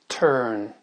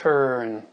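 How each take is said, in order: Both takes have the same delivery.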